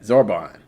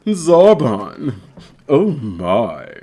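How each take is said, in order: First: Said in the usual way. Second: Drawn-out, put-on anime voice; character voice. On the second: Streamer performing for viewers, drawn-out anime character voice. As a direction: savour the name, then sink lower.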